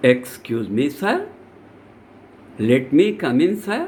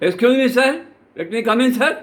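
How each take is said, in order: First: Low, deferential request with rising ends; very polite. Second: High-pitched, brisk impolite request. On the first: Student asking a busy official to enter, very polite. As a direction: ask gently in a lowered pitch. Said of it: "must be very polite". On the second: Student barging in on an official, impolite. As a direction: demand entry in a raised pitch, no deference. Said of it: "This is wrong". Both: Shown as a demonstration.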